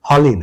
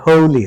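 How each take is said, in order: First: The first vowel is a short plain vowel. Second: The first vowel is a gliding diphthong. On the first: The speaker calls it wrong. "ভাওয়েলটা অ হয়ে যেত" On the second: The speaker calls it right. "ওই যে ডিফথং আসবে"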